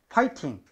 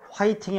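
First: The word begins with a p sound. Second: The word begins with an h sound. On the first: The speaker calls it right. "아니라 파이팅" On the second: The speaker calls it wrong. "화이팅이 아니라"

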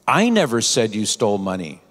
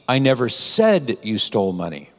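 First: The stress is on the word I. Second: The stress is on the word said.

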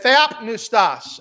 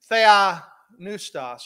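First: The P sound is clearly popped. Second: The P sound is left silent.

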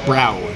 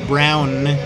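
First: The final n sound is dropped. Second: The final n sound is pronounced. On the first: "The Thai people all say brow" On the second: "Thai people can't say brown"

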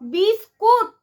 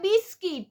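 First: The second syllable has an oo vowel. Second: The second syllable has an ee vowel. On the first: The speaker calls it right. "বিস্কুট বানানটা দেখেছিস কোনোদিনও?" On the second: The speaker calls it wrong. "এই ছাগল উচ্চারণ করে বিস্কিট"

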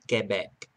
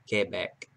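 First: It is said with a French pronunciation. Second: It is said with a French pronunciation.

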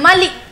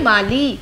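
First: The final vowel is said short. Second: The final vowel is said long. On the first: The speaker calls it wrong. "छोटी सी sound तो नहीं है ना कि ऐसे बोल रहे हैं माली, नहीं ना" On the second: The speaker calls it right. "तो बड़ी ई सी आवाज़ आ रही है"

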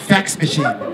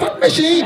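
First: The first word sounds like 'fax'. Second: The first word sounds like 'fuck'. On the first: The speaker calls it right. "you mean fax machine" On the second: The speaker calls it wrong. "You're saying it wrong"

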